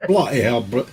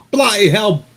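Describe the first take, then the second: First: Mild Liverpool "Bloody hell", a touch of Ringo; lightly put-on Liverpool accent on "Bloody hell"; first go at a Liverpool "Bloody hell", held back; [name] voice. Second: Put-on "bloody hell" in a big, high, loud Liverpool accent; mocking Liverpool accent, much higher and louder; loud [name] voice. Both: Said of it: "If that wasn't Ringo".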